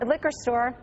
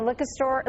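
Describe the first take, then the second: First: "liquor store" with the r fully sounded in "liquor"; careful "liquor", r pronounced clearly; corrected pronunciation. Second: "liquor store" as "licka stoah", r dropped; Boston "liquor" with no r at the end; Boston accent. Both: Real, not acted. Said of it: "Boston accent came out".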